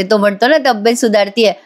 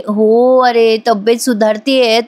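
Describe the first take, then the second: First: Said in the usual way. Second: Slow, drawn-out, feigning weakness; milk "सुधारतीये" slowly like a patient faking it; putting on sickly act. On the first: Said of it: "नाटक करायला लागते". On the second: Pretend. [name] to Ashwin, pretending to be unwell, slow drawn-out fake frailty. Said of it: "आता लगेच बरं काही नाटक करायला लागते".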